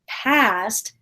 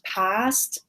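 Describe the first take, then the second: First: It is said in an American accent. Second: It is said in a British accent. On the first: "But in North America, we would say" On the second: "if I was British, I might say them like"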